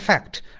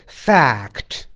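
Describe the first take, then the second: First: The vowel is short and clipped. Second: The vowel is held slightly longer. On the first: The speaker calls it wrong. "不是fact" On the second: The speaker calls it right. "而是fact，对吧？它稍微长一点"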